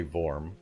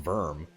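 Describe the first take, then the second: First: Vorm with an OR vowel, as in "form"; intended pronunciation. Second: Verm rhyming with "worm"; mispronounced as Verm. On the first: Shown as a demonstration. Streamer telling how the text-to-speech should say it, Vorm with an OR. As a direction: say Vorm with a clear "or" sound. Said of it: "get that thing to say Vorm". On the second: Retold or imitated. Streamer baffled by text-to-speech misreading Vorm, says Verm like "worm". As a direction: echo the machine's Verm, with an ER vowel. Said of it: "How is that pronounced Verm?".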